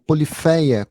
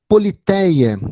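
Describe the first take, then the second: First: The middle consonant sounds almost like an F. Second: The middle consonant is a plain T sound.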